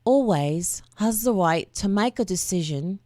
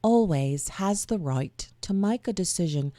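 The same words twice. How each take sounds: First: Whispered try at a British accent; a breathy first stab at sounding British; British accent attempt. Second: Second go at a British accent, softer; British accent attempt. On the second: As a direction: try the Brit voice once more, quietly. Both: Shown as a demonstration. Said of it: "read it in a voice that sounds like I'm a Brit".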